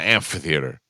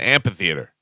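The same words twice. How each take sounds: First: The 'ph' is said as an F sound. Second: The 'ph' is said as a P sound. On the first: The speaker calls it wrong. "Not an amphitheater" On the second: The speaker calls it right. "It's an amphitheater"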